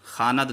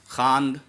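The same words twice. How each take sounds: First: "खानद" in two syllables; mistaken pronunciation. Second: "खांद" as one syllable, louder; no vowel before the final d in "खांद"; correct pronunciation. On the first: Teacher showing what not to read, two-syllable pronunciation. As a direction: put a short a before the final d in "खानद". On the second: Teacher modelling how to read it, one-syllable pronunciation. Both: Shown as a demonstration. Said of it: "खानद नहीं पढ़ेंगे".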